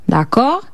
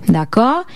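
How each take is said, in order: No difference in how they are said.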